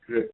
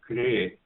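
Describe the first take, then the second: First: The r acts as a very short vowel. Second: The r is followed by a full vowel. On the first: The speaker calls it right. "it's kre" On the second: The speaker calls it wrong. "it's not exactly a kre"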